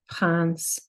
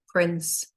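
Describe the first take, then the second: First: It is pronounced with French sounds. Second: It is pronounced with English sounds. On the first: "then the French" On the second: "say the English"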